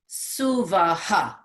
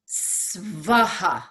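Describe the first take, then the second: First: A vowel is heard between the S and V. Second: No vowel is heard between the S and V.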